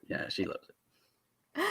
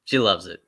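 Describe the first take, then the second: First: Slow soft whisper. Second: Said in the usual way. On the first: Real, not acted. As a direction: breathe it out slowly. Repeats line in a whisper.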